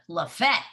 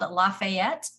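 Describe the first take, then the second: First: The name is said with two syllables. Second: The name is said with three syllables. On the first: This is how the Georgia town says it. "in Georgia, they call it Lafette" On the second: This is how the Louisiana city says it. "like in Louisiana"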